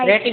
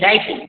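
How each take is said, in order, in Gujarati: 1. પહેલો સ્વર 'ay' જેવો સંભળાય છે. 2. પહેલો સ્વર 'eye' જેવો સંભળાય છે. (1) "રેટિંગ નહીં"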